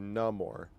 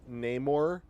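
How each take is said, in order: First: The first vowel sounds like 'ah' in 'father'. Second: The first vowel sounds like 'ay' in 'day'. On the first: "N A H M O R" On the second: "N A Y M O R"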